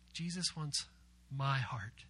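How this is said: The word my is stressed. The speaker's own heart personally is wanted. "We're going to emphasize my"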